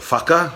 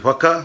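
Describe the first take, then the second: First: The word begins with an f sound. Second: The word begins with a plain w sound. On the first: This is how other dialects say it. "as others would say" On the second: This is the speaker's own dialect. "We don't say our H's and F's"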